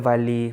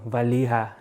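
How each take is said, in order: First: The final syllable 'ha' is dropped entirely. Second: All three syllables are pronounced, ending in 'ha'. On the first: The speaker calls it right. "take the ha away. So it's just the Vali" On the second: The speaker calls it wrong. "you would be like, oh, Valiha"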